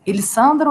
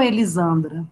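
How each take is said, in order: First: Elissandra with a hissed S sound; "Elissandra" pronounced with S, as in "sun"; S pronunciation. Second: Elisandra with a buzzing Z sound; "Elisandra" pronounced with Z, as in "zoo"; Z pronunciation. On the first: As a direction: say Elissandra with an unvoiced "s" in the middle. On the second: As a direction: say Elisandra with the middle s voiced as "z". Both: Shown as a demonstration. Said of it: "com som de Z ou som de S".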